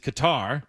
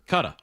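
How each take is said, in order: First: The name is said with an American pronunciation. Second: The name is said with a British pronunciation. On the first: "the American pronunciation is" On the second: "The British pronunciation is"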